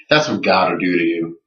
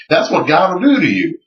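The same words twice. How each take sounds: First: Understated, ironic repeat; dry echo. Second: High, swooping quoted declaration; imitated conviction. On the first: Retold or imitated. Teller echoing the creationist after the ticket story, dry echo. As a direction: echo his line without the fervor. Speaker dryly echoes creationist's line. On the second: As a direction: preach it at him in a raised pitch. Quoting the creationist's triumphant conclusion.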